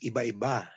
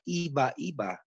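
First: The stress falls on the last syllable of iba. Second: The stress falls on the first syllable of iba. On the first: The speaker calls it right. "The pronunciation is iba-iba" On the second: The speaker calls it wrong. "It's not iba-iba"

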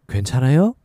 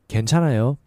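First: The voice rises at the end. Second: The voice falls at the end.

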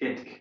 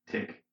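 First: The ending is said as 'itk', vowel first. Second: The ending is said as 'tick', consonant first. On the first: The speaker calls it right. "It's itk" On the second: The speaker calls it wrong. "not tick"

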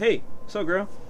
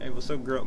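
First: It is said in a casual, polite way. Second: It is said in a flirtatious, seductive way.

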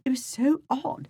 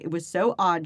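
First: It is said in a put-on British accent. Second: It is said in the speaker's usual accent.

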